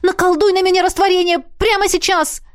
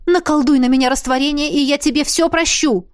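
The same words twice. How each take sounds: First: High, loud insistence on "прямо"; urgent demand. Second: Eager plea. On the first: Heroine shakes Emmet, demanding the spell now, high and loud. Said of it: "потребовала я у Эммета". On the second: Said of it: "схватила я его за руку". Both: A narrator's reading.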